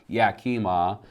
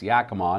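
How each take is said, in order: First: The name is pronounced the way an outsider would. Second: The name is pronounced the way locals say it. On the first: The speaker calls it wrong. "not Yakima" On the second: The speaker calls it right. "it's Yakima"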